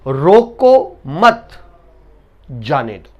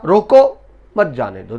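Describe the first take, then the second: First: The pause comes after the word 'mat'. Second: The pause comes after the word 'roko'. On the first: Do not stop them; let them go. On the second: Stop them; do not let them go.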